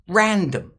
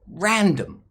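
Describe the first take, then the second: First: Only the first syllable is stressed; the second is weak. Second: The same.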